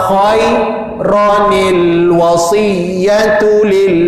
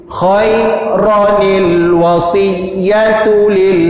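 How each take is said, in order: The two takes are said the same way.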